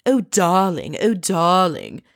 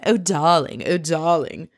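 First: Lightly mocking la-di-da darling, drawn out; mocking posh countess. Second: Said in the usual way. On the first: Podcaster mocking the countess's airs, in a posh put-on voice. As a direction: mimic a pretentious countess cooing darling. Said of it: "pretentious countess stuff". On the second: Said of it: "I love that scene".

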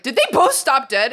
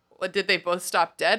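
First: Loud, raised disbelieving question; incredulous. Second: Lightly voiced confused husband; puzzled husband. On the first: Retold or imitated. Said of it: "and I was like". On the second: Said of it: "he's like".

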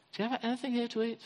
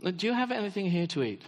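First: Quick, softer, offhand asking; casual quick Jesus. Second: Said in the usual way. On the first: Shown as a demonstration. Preacher re-voicing Jesus as casual and inviting, quick and soft. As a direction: toss it off lightly, like an easy invitation.

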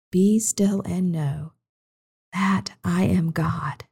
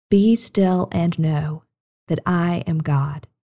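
First: Slow fading whisper of the verse; hushed repeat. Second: Slow call and response. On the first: Minister repeating the verse to children, slow and whispered. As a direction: let it fade to a whisper. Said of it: "softer repetition". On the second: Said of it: "Say it with me". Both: Shown as a demonstration.

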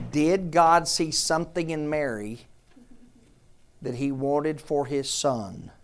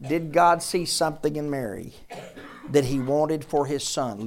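First: Slow down and weigh every word; one more time, let it sink in; slowly stressed rhetorical question; slow, deliberate question. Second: Said in the usual way. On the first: Shown as a demonstration. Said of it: "One more time, focus". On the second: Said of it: "Listen to me".

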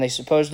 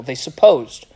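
First: Said in the usual way. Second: "supposed" punched harder, with a falling end; stress on supposed. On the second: Shown as a demonstration. Preacher pointing out the accusers only assumed it, stress on "supposed". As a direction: lean on "supposed" to question it.

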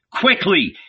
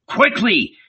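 First: Pressing them on, higher and urgent; urgent exhortation. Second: First urge pitched high; urgent exhortation. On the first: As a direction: hurry them along. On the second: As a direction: snap "Quickly" out higher. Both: Acted. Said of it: "he exhorted his companions".

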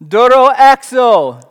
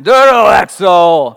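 First: Loud, higher, slow booming command; epic Greek command. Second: Very loud, slow booming "Doro exo"; epic Greek command. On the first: Acted. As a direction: proclaim "Doro exo" like thunder. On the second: Shown as a demonstration. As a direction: roar "Doro exo" for full effect. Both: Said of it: "That sounds epic when you say it in Greek".

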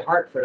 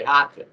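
First: Said in the usual way. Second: "Hartford" with Rs dropped, Massachusetts style; Boston-area accent, saying "Hartford" as "Hahtfid"; old Massachusetts accent. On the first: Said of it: "I never used to say". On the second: Shown as a demonstration. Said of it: "I would always say".

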